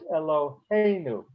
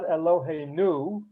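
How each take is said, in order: First: The stress is on the next-to-last syllable. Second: The stress is on the last syllable. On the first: The speaker calls it right. "next to the last syllable" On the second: The speaker calls it wrong. "it's not Eloheinu"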